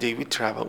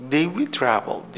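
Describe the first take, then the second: First: Said in the usual way. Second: "they will travel" drawn out word by word; slow model reading. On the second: Shown as a demonstration. Teacher reads the example slowly so students can follow. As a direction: read it slowly, one word at a time. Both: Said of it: "خب they will travel".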